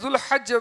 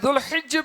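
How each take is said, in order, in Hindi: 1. 'h' के बाद का स्वर 'a' है। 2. 'h' के बाद का स्वर 'i' है। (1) "ज़बर" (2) "हा के ज़ेर"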